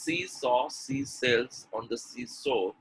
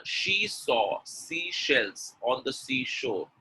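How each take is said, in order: First: Every sh turned to s, "she" as "see"; slow demo with s replacing sh in "she"; wrong pronunciation. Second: Slow tongue twister, crisp sh in "she", "seashells", "seashore"; carefully spaced "seashore" with a clear sh; correct pronunciation. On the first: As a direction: say "seashells" as "sea-sells", "seashore" as "sea-sore". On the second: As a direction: keep s and sh apart in "she saw seashells". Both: Shown as a demonstration. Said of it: "is wrong pronunciation".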